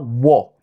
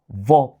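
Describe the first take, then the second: First: The word begins with a w sound. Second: The word begins with a v sound. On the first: The speaker calls it wrong. "pas wo" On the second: The speaker calls it right. "W est prononcé comme V"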